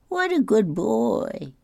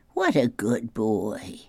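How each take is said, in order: First: Put-on What a good boy! pitched higher and drawn out slowly, like cooing adults; high slow doting praise. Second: Said in the usual way.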